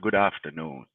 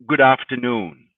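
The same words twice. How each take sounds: First: It is said in a non-standard accent. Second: It is said in a Queen's English accent. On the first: The speaker calls it wrong. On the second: The speaker calls it right. "Like I would say to you"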